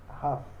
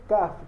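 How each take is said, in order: First: It begins with a throaty kh sound. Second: It begins with a hard k sound. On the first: The letter has no dot inside it. "sem o pontinho tem som de RET" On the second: The letter has a dot inside it. "com pontinho ele tem som de K"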